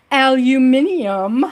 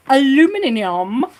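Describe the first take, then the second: First: "aluminium" said the British way, five syllables, al-yoo-MIN-ee-um; British pronunciation. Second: Said in the usual way. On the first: Shown as a demonstration. Streamer playing with her drill word, saying aluminium the British way. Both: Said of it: "whenever I say aluminum".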